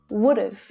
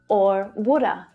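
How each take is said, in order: First: It ends with a short v sound. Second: It ends with a short uh, no v. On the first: "Would have becomes would have"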